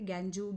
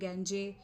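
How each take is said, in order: First: The word has two syllables ending in joo. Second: The word has two syllables ending in jay. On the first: "ऐसा कुछ भी नहीं होता" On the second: "ऐसा कुछ भी नहीं होता"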